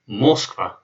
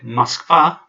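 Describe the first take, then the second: First: The stress is on the first syllable. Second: The stress is on the second syllable. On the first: The speaker calls it wrong. "the stress would be on, on, the, on the first syllable" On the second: The speaker calls it right. "the stress is on the second A"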